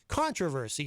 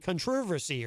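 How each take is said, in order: First: It is said in a plain American way. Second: It is said in an imitated British way.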